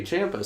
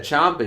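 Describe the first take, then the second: First: Ciampa said "CHAM-pa", rhyming with Tampa; contrasted pronunciation. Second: Ciampa said "CHOM-pa", with a broad ah; contrasted pronunciation. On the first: Shown as a demonstration. Host giving the version not heard, CHAM-pa. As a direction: say Ciampa with the short a of "champ". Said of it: "he said Ciampa". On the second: Retold or imitated. Host quoting what he heard in a promo, CHOM-pa. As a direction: say Ciampa as "chomp-a", stressed. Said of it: "he didn't say Ciampa".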